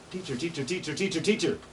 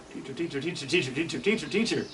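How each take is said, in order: First: High chanted teacher call; imitating ovenbird. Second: Ovenbird call growing louder each time; building ovenbird call. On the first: Teacher mimics ovenbird call for students, high chant. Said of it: "hear it saying". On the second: Teacher shows ovenbird song swelling, building louder. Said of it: "Getting louder and louder". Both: Shown as a demonstration.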